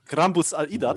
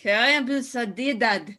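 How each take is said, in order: First: "Grambus al Idad" in guttural Dwarvish, rolled R; dwarvish phrase. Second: "Grambus al Idad" repeated slowly, laughing; repeating dwarvish. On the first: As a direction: say "Grambus al Idad" as a dwarf would. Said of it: "We can speak dwarf". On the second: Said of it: "Yeah, very good". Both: Shown as a demonstration.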